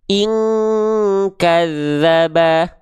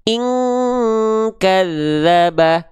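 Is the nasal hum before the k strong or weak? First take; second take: strong; strong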